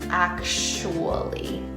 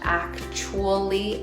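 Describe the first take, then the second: First: No t sound is heard in the middle. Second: A t sound is heard in the middle. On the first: "you take out the T sound" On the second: "It's not actually anymore"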